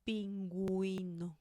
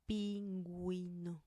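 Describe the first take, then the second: Both takes have the same delivery.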